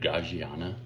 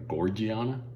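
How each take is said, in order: First: The first syllable sounds like 'gag'. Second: The first syllable sounds like 'gor'. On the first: It follows the spelling. The speaker calls it wrong. "It's spelled like Gaggiana, but I don't think that's the right pronunciation" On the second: It does not follow the spelling. The speaker calls it right. "So we're going to call it the Gorgiana"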